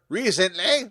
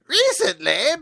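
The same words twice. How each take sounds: First: It is said in his natural voice. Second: It is said imitating Hogue's voice.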